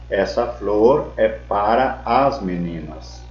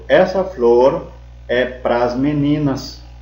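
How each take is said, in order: First: The preposition and article are said as separate words. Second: The preposition and article merge into one short syllable. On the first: "Em vez de falar" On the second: "Pra mais as, pras"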